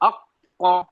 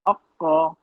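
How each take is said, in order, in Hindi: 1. दोहरी q को ज़ोर से और मज़बूती से दबाया जाता है। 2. दोहरी q को हल्के और नरमी से बोला जाता है। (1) "थोड़ा उसपे मज़बूत" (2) "नरमी वाली ना"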